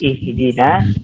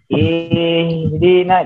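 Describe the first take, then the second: First: The first vowel is short but fully voiced. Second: The first vowel is drawn out long. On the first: The speaker calls it right. "sempurnakan kasrah i ya pada kalimat ihdina" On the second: The speaker calls it wrong. "jangan dipanjangkan jangan jadi ihdina ihdina juga itu salah"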